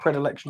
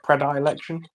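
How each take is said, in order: First: The 'i' sound is said lightly, not stressed. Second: The 'i' sound is said fully and overpronounced.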